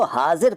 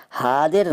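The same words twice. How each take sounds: First: Said in the usual way. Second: हादिर with d replacing z. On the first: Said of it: "हादिर नहीं कहते". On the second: Shown as a demonstration. Teacher showing the rejected form, हादिर with d for z. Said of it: "नहीं कहते".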